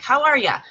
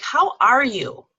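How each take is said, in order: First: Said in the usual way. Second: Slower, sincere how are you; "How are you?" slow and heartfelt; asked with meaning. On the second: Shown as a demonstration. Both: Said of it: "ask it with meaning".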